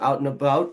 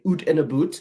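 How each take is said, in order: First: Out is said in a plain, standard way. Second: Out is said the Canadian way, like oot.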